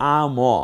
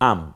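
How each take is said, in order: First: The final consonant is followed by a vowel. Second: The final consonant is closed with no vowel. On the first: The speaker calls it wrong. "এটাও না" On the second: The speaker calls it right. "আ আর শুধু ম মিলে কি হয়?"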